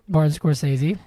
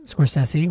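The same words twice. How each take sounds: First: Scorsese said as skor-SAY-zee, ending in zee. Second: Scorsese said as skor-SESS-ee, with a short e and an s. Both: Shown as a demonstration. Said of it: "whatever you wanna say".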